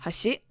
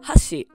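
First: The pitch accent falls on the second syllable. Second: The pitch accent falls on the first syllable. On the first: The word means bridge. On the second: The word means chopsticks.

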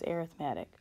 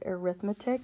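First: The stress is on the third syllable. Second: The stress is on the second syllable. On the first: This is the describing word used for sequences. "when we're talking about sequences, we use arithmetic" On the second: This is the everyday word for calculation. "we usually pronounce this word arithmetic"

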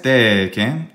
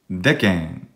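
First: The first vowel is long. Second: The first vowel is short. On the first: The speaker calls it wrong. "Non est decem" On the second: The speaker calls it right. "Brevis longa"

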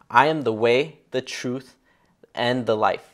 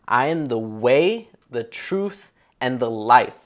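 First: It is read in a plain, ordinary way. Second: It is read in a bold, confident way.

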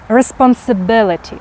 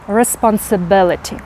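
Both takes have the same delivery.

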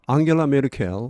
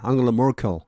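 First: The name is said in a Korean-style reading. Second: The name is said in an English-style reading.

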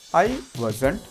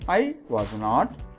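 First: The last two words are joined into one. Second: All three words are said fully and separately.

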